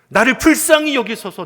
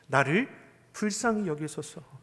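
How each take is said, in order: First: It is shouted loudly and desperately. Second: It is said slowly and calmly.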